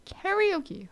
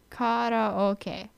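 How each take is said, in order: First: "Karaoke" said carry-OH-key, high; mock wrong pronunciation. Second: "Karaoke" said kah-rah-oh-keh, vowels pure; Japanese pronunciation. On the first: Vlogger imitating mainland speakers, wrong pronunciation. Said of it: "Not karaoke". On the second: Vlogger correcting viewers, Japanese pronunciation. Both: Shown as a demonstration.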